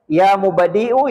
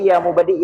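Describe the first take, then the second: First: The word ends with a final u vowel. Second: The word stops short without a final vowel. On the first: The speaker calls it right. "Itu diteruskan" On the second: The speaker calls it wrong. "Jangan baca ya mubadi"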